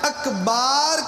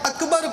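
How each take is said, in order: First: The second vowel is drawn out long. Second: Both vowels are short. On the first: The speaker calls it wrong. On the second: The speaker calls it right.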